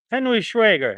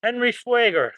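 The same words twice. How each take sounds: First: "Schwager" said as SHWEH-ger, short e, tentative; first try at the name. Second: "Schwager" said as SHWAY-ger with a long ay, settled and sure; corrected name. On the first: Reading a viewer's surname aloud, first hesitant attempt at "Schwager". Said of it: "I can't pronounce it". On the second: Streamer nails a viewer's surname, confident "Schwager" as SHWAY-ger. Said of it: "Spot on. I got it perfect". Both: Shown as a demonstration.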